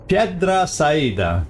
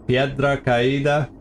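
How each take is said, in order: First: The second word begins with an s sound. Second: The second word begins with a k sound. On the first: The speaker calls it wrong. "Not even close" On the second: The speaker calls it right. "is that a little closer at least?"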